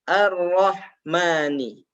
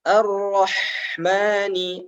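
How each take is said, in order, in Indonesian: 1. Bunyi h berhenti mendadak dengan memantul. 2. Bunyi h mengalir terus, udaranya tidak putus.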